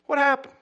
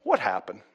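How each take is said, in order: First: Pitched up, pleading; anxious raised repeat; urgent high repeat. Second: Said in the usual way. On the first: Retold or imitated. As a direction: repeat it higher and louder, worried. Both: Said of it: "I said".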